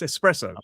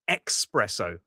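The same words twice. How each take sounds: First: The word begins with an 'es' sound. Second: The word begins with an 'ex' sound. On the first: The speaker calls it right. "but it's espresso, and there's no X in espresso" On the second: The speaker calls it wrong. "who say espresso with a X in there"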